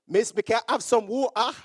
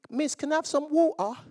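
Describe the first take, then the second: First: It is said in a thick Jamaican accent. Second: It is said in a delicate British accent.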